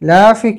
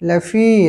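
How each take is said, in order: First: The first syllable la is drawn out long. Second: The second syllable fi is drawn out long. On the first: The speaker calls it wrong. "লাফি কি আবার?" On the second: The speaker calls it right. "লামে টান নাই, ফি এর মধ্যে টান আছে"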